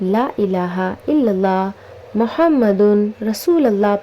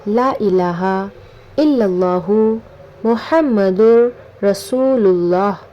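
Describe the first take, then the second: First: Muhammadun with n, then rasulullah joined together. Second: Muhammadur with r linked into rasulullah. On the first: The speaker calls it wrong. "कलमा को बहुत से लोग गलत पढ़ते हैं" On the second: The speaker calls it right. "सही कलमा ये है"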